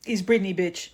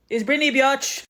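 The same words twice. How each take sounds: First: Said in the usual way. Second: "Biatch" stretched to bee-otch; altered pronunciation. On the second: Retold or imitated. Dad softens the swear for his kid, "Biatch" said bee-atch. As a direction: say "Biatch" with an ee glide before an open ah. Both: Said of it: "like, an E in there".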